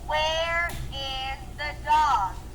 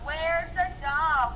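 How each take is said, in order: First: Where and is are said as two separate words. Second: Where and is are joined into one syllable. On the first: "I'll say questions without contractions" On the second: "We're using the contraction"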